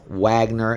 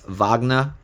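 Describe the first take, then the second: First: It begins with a W sound. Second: It begins with a V sound. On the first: The speaker calls it wrong. "we don't pronounce it as Wagner" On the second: The speaker calls it right. "It's Wagner, double V"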